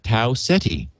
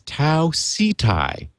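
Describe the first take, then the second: First: The second word ends with an 'ee' sound. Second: The second word ends with a 'tie' sound. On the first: This is the habitual way of saying it. The speaker calls it wrong. "I have always pronounced it Tau Ceti" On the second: This is the way the listener says it should be. The speaker calls it right. "phonetically S E E hyphen T I E"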